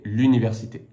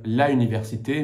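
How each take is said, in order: First: The article drops its vowel and links into université. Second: The article la keeps its vowel before université. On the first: The speaker calls it right. "mais l'université" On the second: The speaker calls it wrong. "On ne va pas dire la université"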